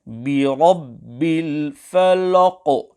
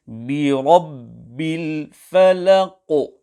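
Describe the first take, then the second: First: "الْفَلَقِ" with a heavy, rounded "law" before the Qaf; wrong full-mouth Lam. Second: "الْفَلَقِ" with a thin "la" before a heavy Qaf; light Lam. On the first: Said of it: "pronounce this Lam full mouth". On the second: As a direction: keep the L of "الْفَلَقِ" light, then round and bounce the "qo". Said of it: "where the Lam is not pronounced full mouth". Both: Shown as a demonstration.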